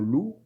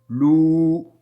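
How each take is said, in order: First: The vowel is short. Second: The vowel is drawn out long.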